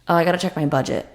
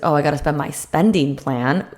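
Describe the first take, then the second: First: It sounds deflated and restricted. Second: It sounds excited and expansive.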